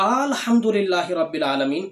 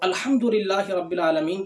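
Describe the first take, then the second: First: The opening vowel is drawn out long. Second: The opening vowel is short. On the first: It turns the phrase into a question. The speaker calls it wrong. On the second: It is a plain statement. The speaker calls it right.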